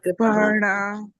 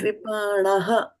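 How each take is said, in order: First: The word ends on a plain 'a' sound. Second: The word ends with an audible breathy 'ha'. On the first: The speaker calls it wrong. "And not kripana" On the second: The speaker calls it right. "when there is a H, then you have to pronounce the H also"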